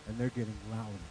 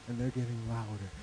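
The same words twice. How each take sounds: The two takes are said the same way.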